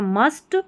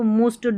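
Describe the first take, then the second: First: The vowel is a short 'uh' sound. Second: The vowel is an 'oo' sound. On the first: The speaker calls it right. "ऐसे पढ़ना है" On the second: The speaker calls it wrong. "ऐसे नहीं पढ़ेंगे, यू को हमेशा ऐसे लगे और यू ही पढ़ा जा रहा है"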